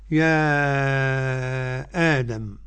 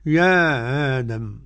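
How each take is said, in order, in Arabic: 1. نطق الهمزة تام والمد طويل. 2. نطق الهمزة مخفف والحركة قصيرة. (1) "لنا التحقيق على المد ست حركات" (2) "والقصر"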